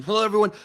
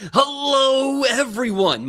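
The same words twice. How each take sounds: First: Said in the usual way. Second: High, loud, drawn-out hello; soaring, stretched announcer greeting; correct showy greeting. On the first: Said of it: "Sorry, this is right". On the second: Shown as a demonstration. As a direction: belt out a big host's welcome. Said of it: "Let me do this correctly".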